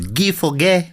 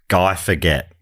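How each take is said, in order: First: The name is said with French pronunciation. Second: The name is said with English pronunciation. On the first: The speaker calls it right. "but it was" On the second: The speaker calls it wrong. "who I thought was"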